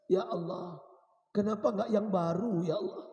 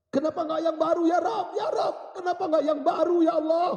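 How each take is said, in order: First: Restrained, mournful plea to God; acted weeping prayer, kept at speaking volume; tearful plea. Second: High, loud wailing cry to God; dying man crying out at full force; anguished shout. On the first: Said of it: "sambil menangis". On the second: Acted. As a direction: shout the plea in desperate regret. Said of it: "Dia berteriak".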